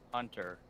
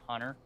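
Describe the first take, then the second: First: The middle T is clearly pronounced. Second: The middle T is dropped entirely. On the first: The speaker calls it right. "his name is Hunter" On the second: The speaker calls it wrong. "you just don't pronounce the T at all"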